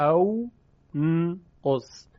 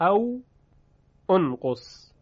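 First: The second word starts directly with n. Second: A short u vowel starts the second word. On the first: "همزه وصل حذف میشه، میشه او انقص، که این گونه تلفظ سخت" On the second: "اصل این بوده او انقص"

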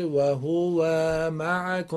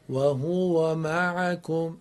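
First: The vowel after wa is drawn out. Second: The vowel after wa is kept short. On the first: The speaker calls it wrong. "ای بشه و هو و معکم، این غلطه" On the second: The speaker calls it right. "فتحه نباید کشیده بشه"

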